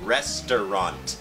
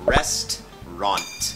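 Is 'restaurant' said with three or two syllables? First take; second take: three; two. First: The word is said with three syllables. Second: The word is said with two syllables. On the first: "หรือจะเป็น3 พยางค์ก็ได้" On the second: "ภาษาอังกฤษต้องออกเสียงว่า"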